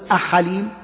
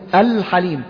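First: The L sound is dropped after the vowel. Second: The L sound is clearly pronounced after the vowel. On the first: The speaker calls it wrong. "لا تقول أحليم" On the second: The speaker calls it right. "تقول الحليم"

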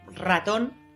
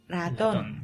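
First: The R at the start is strongly trilled. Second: The R at the start is soft. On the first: The speaker calls it right. "en vez de decir ratón" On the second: The speaker calls it wrong. "lo dicen con una R suave"

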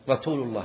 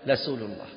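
First: The s sound is said as a t. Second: The r sound is said as an l. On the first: "السين أجعلها تاء" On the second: "يجعل الراء لاما"

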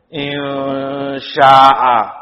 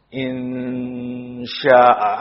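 First: The n sound is dropped completely. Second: The n sound is present but faint. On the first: The speaker calls it wrong. "Hilang nunnya, gak kebaca sama sekali" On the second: The speaker calls it right. "Ada nun, tapi anggang-anggang, samar-samar kamu bacanya"

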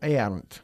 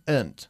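First: The word is said with two syllables. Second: The word is said with one syllable. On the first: The speaker calls it wrong. "many Spaniards say" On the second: The speaker calls it right. "una sola sílaba"

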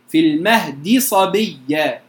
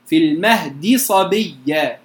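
First: The d and its vowel are pronounced in full. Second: The same.

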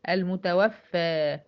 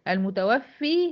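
First: The word ends in an 'a' sound. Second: The word ends in an 'ee' sound. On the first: Someone else took the person's life. The speaker calls it right. "لا المتوفى" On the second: The person caused their own death. The speaker calls it wrong. "ها المتوفي"

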